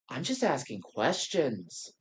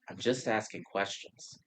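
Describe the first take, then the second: First: It is said in a put-on, drawling imitation voice. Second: It is said in the speaker's ordinary voice. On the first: The way those theorists talk is being mimicked. "they also tend to have the tone of" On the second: The phrase itself is being cited. "they tend to use the phrase of"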